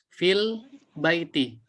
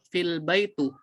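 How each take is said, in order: First: The last word ends with an 'i' vowel. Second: The last word ends with a 'u' vowel. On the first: The speaker calls it right. "Yang benar adalah huruf terakhirnya dikasrohkan" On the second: The speaker calls it wrong. "tidak boleh dibaca fil baitu"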